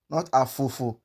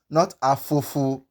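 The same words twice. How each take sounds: No difference in how they are said.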